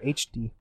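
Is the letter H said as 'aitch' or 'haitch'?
aitch. The letter H is said as aitch. This is the speaker's own usual way of saying it.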